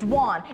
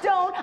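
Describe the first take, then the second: First: The name rhymes with swan, with a 'wah' sound. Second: The name has an 'oh' sound, like 'Joan'. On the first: The speaker calls it right. "It's Dwan. It rhymes with swan" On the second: The speaker calls it wrong. "It's not Doan"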